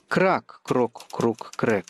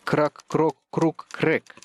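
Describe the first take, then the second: First: The stress falls on the first syllable, крак. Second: The stress falls on the fourth syllable, крэк.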